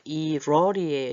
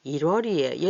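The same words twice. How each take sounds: First: 일월이에요 said connected, as i-rwo-ri-e-yo; linked pronunciation. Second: Said in the usual way. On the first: Shown as a demonstration. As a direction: carry the ㄹ of 일월이에요 into the next syllable. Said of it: "이렇게 소리가 나죠?". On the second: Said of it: "얘도 어떻게 돼?".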